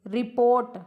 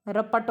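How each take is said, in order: First: रिपोर्ट with long o and an r before t; full English-style रिपोर्ट. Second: रपट with short a vowels and no second r; short Hindi-ised रपट. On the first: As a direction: say रिपोर्ट as "ri-port". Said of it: "विदेशी ध्वनियों का प्रभाव". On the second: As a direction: say रपट as "ra-pat". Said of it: "रपट हो गई". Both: Shown as a demonstration.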